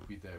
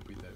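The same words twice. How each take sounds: The two takes are said the same way.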